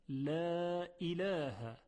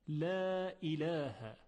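Both takes have the same delivery.

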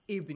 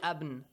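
First: The word begins with an i vowel. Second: The word begins with an a vowel. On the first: The speaker calls it right. "you say with kasra" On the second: The speaker calls it wrong. "You don't say Abn"

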